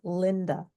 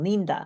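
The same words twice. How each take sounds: First: The first vowel is a short i sound. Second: The first vowel is a long ee sound. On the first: The speaker calls it right. "it's Linda" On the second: The speaker calls it wrong. "the I sounds like this long E sound"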